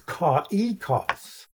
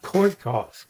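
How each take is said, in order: First: The two vowels are said as separate sounds. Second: The two vowels blend into one sound. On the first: The speaker calls it right. "pronounced separately" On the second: The speaker calls it wrong. "not koikos"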